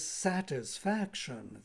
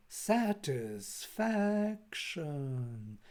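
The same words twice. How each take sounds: First: Satisfaction said slowly, syllable by syllable; slow down on "satisfaction" to show its accent; "satisfaction" stretched a little, each syllable clearly marked. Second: Satisfaction hugely drawn out, raised then falling; "satisfaction" in long held syllables, almost chanted, falling at the end; pitch accent demo. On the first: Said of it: "this particular accentuation". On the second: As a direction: intone "satisfaction" very slowly, lifting the middle and sliding down. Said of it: "once you raise the voice". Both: Shown as a demonstration.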